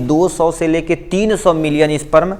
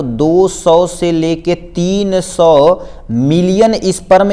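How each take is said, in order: First: Said in the usual way. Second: Very slow, drawn-out "दो सौ से लेके तीन सौ मिलियन"; धीमा ज़ोर. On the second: Shown as a demonstration. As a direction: stretch out each part of "तीन सौ मिलियन" for weight. बड़ी संख्या पर ज़ोर देता शिक्षक. ("तीन सौ मिलियन" खींचकर, बहुत धीरे)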